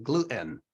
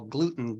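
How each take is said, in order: First: "gluten" with the T swallowed, glu'-in; New Jersey pronunciation. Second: Said in the usual way. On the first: Shown as a demonstration. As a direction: glottal stop in the middle of "gluten". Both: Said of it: "people in New Jersey".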